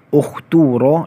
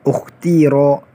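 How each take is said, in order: First: The vowel after the t is u. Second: The vowel after the t is i. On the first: "Yang pertama, dhammah" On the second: "Wajah yang kedua, kasrah"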